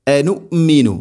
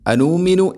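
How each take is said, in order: First: "അനുമിനു" with a short first vowel, recited higher; correct recitation. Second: "അനുമിനു" with the second syllable wrongly drawn out; mistaken recitation. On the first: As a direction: keep the opening of "അനുമിനു" short, then lengthen the middle. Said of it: "അനുമിനു എന്നല്ല". ("അനുമിനു" ആദ്യം നീട്ടാതെ ശരിയായി ഓതുക) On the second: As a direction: demonstrate the slip, stretching the "നു" inside "അനുമിനു". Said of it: "എന്നല്ല". ("അനുമിനു" തെറ്റായി നീട്ടി കാണിക്കുക) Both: Shown as a demonstration.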